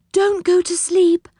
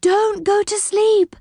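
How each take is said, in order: First: High, urgent cry; high-pitched alarm, at normal pace. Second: Higher, slow, drawn-out urgent cry; insistent high wail to stay awake. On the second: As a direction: stretch out the plea, very high. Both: A narrator's reading. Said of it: "cried Silky".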